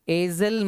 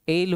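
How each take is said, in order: First: The word is said with an s sound. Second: The word is said without an s sound. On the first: The speaker calls it wrong. "इसको एजल मत पढ़िएगा" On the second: The speaker calls it right. "इसमें एस जो है ना वो silent रहता है"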